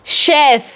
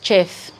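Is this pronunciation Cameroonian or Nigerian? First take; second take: Cameroonian; Nigerian. First: It is said with a Cameroonian pronunciation. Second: It is said with a Nigerian pronunciation. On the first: "We here pronounce it as chef" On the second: "the average Nigerian pronounces it as chef"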